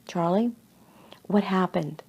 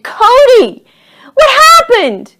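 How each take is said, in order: First: Soft, measured question at normal pitch; calm questioning. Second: High, very loud scream down to someone. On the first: Fireman questions Charlie after the fall, calm and soft. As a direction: ask it gently and quietly. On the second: Charlie screams after fallen Cody, high and loud. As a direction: shriek it, drawing out the words. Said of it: "Charlie screamed". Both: A narrator's reading.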